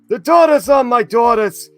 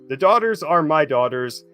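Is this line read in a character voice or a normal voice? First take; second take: character voice; normal voice. First: It is read in a put-on character voice. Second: It is read in the reader's normal voice. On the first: The speaker calls it right. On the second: The speaker calls it wrong.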